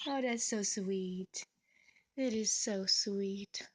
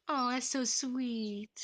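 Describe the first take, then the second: First: Drawn out and hushed, slow. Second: Drawn-out tender oh, slow; slow melting coo. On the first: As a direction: sigh it out in awe, slowly. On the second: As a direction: melt over the cute moment, slowly. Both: Real, not acted. Melting over bird's kiss.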